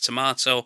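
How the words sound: It is said with a British pronunciation. "how we pronounce it in the UK"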